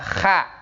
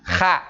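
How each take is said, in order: No difference in how they are said.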